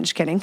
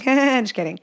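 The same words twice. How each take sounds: First: Said in the usual way. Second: Laughing it off. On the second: Real, not acted. To the listeners, laughing it off. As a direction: repeat it through a laugh.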